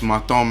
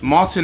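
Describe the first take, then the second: First: The name is said with a Flemish pronunciation. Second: The name is said with an English pronunciation. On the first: "If you want to say it the Flemish way" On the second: "that's Martin is how you say the name in English"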